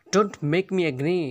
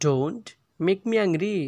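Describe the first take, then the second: First: Said in the usual way. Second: Slowly, with a pause after "Don't"; slow repeat. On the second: Shown as a demonstration. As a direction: stretch "Don't", then finish the phrase. Teacher repeats phrase slowly.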